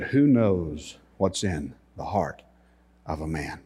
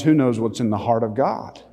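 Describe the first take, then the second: First: Softly imitated Israeli tour guide; Israeli accent. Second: Said in the usual way. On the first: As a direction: lower the voice into a measured Israeli accent. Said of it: "in his Israeli accent".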